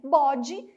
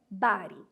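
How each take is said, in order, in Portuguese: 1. Ela é lida com sons portugueses, como 'bode'. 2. Ela é falada com sons ingleses, como 'body'. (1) "se a gente fosse ler do jeitinho que está escrito" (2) "Mas atenção com a pronúncia, essa palavrinha é body"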